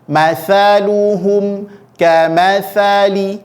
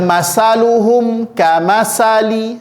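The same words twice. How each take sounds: First: The consonant is a th sound with tongue out. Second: The consonant is a hissing s sound. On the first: The speaker calls it right. "Keluarkan ujung lidahnya" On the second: The speaker calls it wrong. "Kalau tidak keluar ujung lidah, maka otomatis bunyinya berubah menjadi huruf sin"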